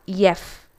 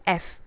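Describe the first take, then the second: First: "yef" with a Y at the start; yef, with intrusive Y; wrong letter F. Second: F said "eff", softer; F with no Y before it; correct letter F. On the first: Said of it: "Not yef". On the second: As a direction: say F softly as "eff". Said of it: "The correct pronunciation is". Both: Shown as a demonstration.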